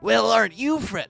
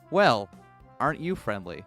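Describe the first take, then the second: First: It is said in a put-on Sonic voice. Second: It is said in the speaker's normal voice.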